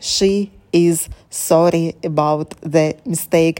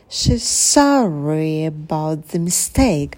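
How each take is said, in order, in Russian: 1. Каждое слово произносится на одном ровном уровне. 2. Ударные слова выделяются, остальные произносятся тише. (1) "Не нужно все читать на одном уровне" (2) "Прыгнули на слово sorry"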